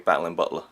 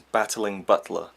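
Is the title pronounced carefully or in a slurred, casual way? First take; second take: slurred; carefully. First: The sounds run together in a slurred way. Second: Every sound is clearly and carefully pronounced. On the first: "my kind of way of saying it" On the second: "if you really pronounce it"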